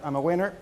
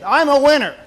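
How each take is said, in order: First: It is said flatly, without conviction. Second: It is said with strong, confident conviction. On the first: The speaker does not really believe it. The speaker calls it wrong. "instead of saying, yep, I'm a winner, let's go to the next one" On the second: The speaker truly believes it. The speaker calls it right. "Say it like you mean it"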